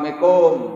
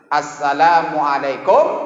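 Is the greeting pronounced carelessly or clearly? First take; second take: carelessly; clearly. First: The greeting is pronounced carelessly, with sounds altered. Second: The greeting is pronounced clearly, every sound distinct. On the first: It turns the greeting into an invitation to make love. The speaker calls it wrong. "mari kita bercinta. Hati-hati" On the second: It is a proper greeting of peace. The speaker calls it right. "Jadi harus jelas ya"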